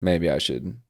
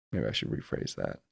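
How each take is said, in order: First: Said in the usual way. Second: Whispered under his breath, much softer and lower; muttered aside. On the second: Real, not acted. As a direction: mumble it to yourself like an afterthought. Muttering self-correction to himself.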